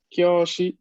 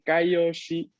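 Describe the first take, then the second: First: The word begins with one gliding syllable, 'kyo'. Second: The word begins with two syllables, 'kai-o'. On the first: The speaker calls it right. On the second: The speaker calls it wrong. "quien estudia inglés tiende mucho a confundir a la lectura con Kaioshi"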